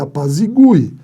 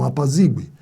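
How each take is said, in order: First: The stress falls on the 'gu' syllable. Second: The stress falls on the 'zi' syllable. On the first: The speaker calls it right. "Então vá lá e apazigue" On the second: The speaker calls it wrong. "não apazigue"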